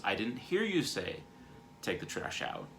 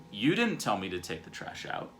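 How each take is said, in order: First: Less intense. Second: Mildly defensive protest, pushing on "didn't". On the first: Husband explains he missed the request, less intense. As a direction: ease off the defensiveness and let it drop. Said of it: "a less intense version of that". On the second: Husband denies being told about the trash, defensive. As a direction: push the blame back, a touch indignant. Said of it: "Or I can get defensive". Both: Acted.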